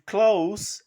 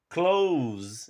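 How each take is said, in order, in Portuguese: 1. O som final é um s surdo. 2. O som final é um z sonoro. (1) "o adjetivo close é perto" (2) "é o verbo fechar"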